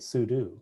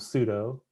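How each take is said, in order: First: The last syllable sounds like the word 'do'. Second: The last syllable does not sound like 'do'. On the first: "then I started pronouncing it sudo because I think it's you know for me it's short for super user do" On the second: "I used to pronounce it um"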